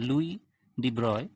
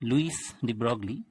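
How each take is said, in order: First: The surname is said with no g sound. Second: The surname is said with a hard g sound. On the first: The speaker calls it right. "French pronunciation অনুযায়ী" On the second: The speaker calls it wrong. "this is not the right pronunciation in French"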